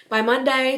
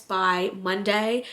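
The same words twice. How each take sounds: First: "by Monday" repeated higher and louder; emphatic repeat. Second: Said in the usual way. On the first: Real, not acted. Repeating the boss's deadline, stressing "by Monday". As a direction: lean into "by Monday" with extra push.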